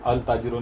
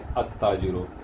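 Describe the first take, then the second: First: The l of the article is clearly pronounced. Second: The l merges into the following t sound. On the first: The speaker calls it wrong. "अल ताजिरो नहीं" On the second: The speaker calls it right. "बल्कि अत ताजिरो"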